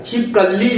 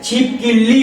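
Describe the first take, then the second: First: छिपकली with an "a" after the k; standard pronunciation. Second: छिपकिली with an "i" after the k; common mispronunciation. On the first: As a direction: say छिपकली as "chhip-kal-lee". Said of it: "छिपकली होता है". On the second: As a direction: say छिपकिली as "chhip-kil-lee". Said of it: "छिपकिली नहीं होता". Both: Shown as a demonstration.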